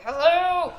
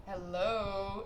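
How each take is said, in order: First: Louder, higher, exasperated hello; mock yell to wake the driver; loud call. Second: Soft, fading hello; a tentative mock call at the window; quiet call. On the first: Ten minutes calling sleeping driver. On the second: Knocking on sleeping driver's window.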